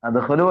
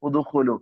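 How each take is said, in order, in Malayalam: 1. ഈ വാക്ക് 'a' സ്വരാക്ഷരത്തിലാണ് തുടങ്ങുന്നത്. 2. ഈ വാക്ക് 'u' സ്വരാക്ഷരത്തിലാണ് തുടങ്ങുന്നത്. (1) "അദ്ഖുലു വരൂലല്ലോ" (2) "കറക്റ്റ് ആണ്"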